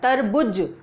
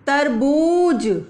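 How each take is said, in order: First: The u vowel in the second syllable is short. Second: The u vowel in the second syllable is long. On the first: The speaker calls it wrong. "अगर मैं उ की मात्रा लगा दूं यहां पर तो ये तरबुज हो जाएगा" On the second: The speaker calls it right. "तो क्या बोलना है आपको?"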